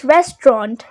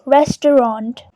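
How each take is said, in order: First: "restaurant" as REST-ront; British two syllables. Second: "restaurant" as RES-tuh-ront; three syllables. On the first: Teacher shows British English, "restaurant" squeezed to two syllables. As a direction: drop the middle vowel of "restaurant". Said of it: "you might hear just two syllables". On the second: Teacher models the word, "restaurant" in three syllables. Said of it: "The second syllable is just t". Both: Shown as a demonstration.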